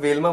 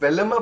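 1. यह नाम दो अक्षरों में बोला जाता है। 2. यह नाम तीन अक्षरों में बोला जाता है। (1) "मुझे लगा Velma बोलते हैं" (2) "Velamma pronounce करते हैं"

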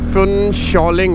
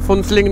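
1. दूसरा अक्षर 'shaw' जैसा सुनाई देता है। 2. दूसरा अक्षर 'see' जैसा सुनाई देता है। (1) "फुनशॉलिंग है, ... नाम को ढंग से प्रोनाउंस करें" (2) "वैसे फुनसिलिंग नहीं है"

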